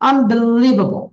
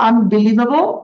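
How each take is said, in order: First: The main stress falls on 'lie'. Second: The main stress is not on 'lie'. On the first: The speaker calls it right. "আমি যখন live এ যদি জোর দেই তখন কেমন সুন্দর শোনায়" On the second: The speaker calls it wrong. "আমরা আমরা বলে থাকি এটা unbelievable"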